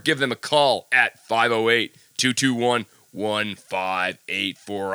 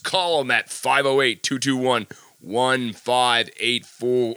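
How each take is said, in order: First: It is read in his plain speaking voice. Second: It is read in a put-on radio announcer voice.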